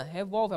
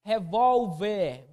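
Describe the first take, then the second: First: Said in the usual way. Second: "Revólver" very slow, leaning on VÓL; slow demonstration of the stress in "Revólver"; stressed syllable drawn out. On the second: Shown as a demonstration. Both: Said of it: "A posição é a penúltima".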